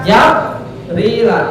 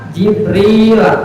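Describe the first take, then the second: First: The first syllable has the vowel a. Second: The first syllable has the vowel i. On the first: "fathah jim bisa" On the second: "bisa bikasril jim berarti bisa"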